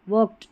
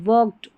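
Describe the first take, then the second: No difference in how they are said.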